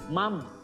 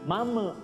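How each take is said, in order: First: The m is held clear and steady. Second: The m is released with a bounce. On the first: The speaker calls it right. "Tapi mam, nun" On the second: The speaker calls it wrong. "nun tidak boleh dibaca pantul, ya. Mam tidak boleh"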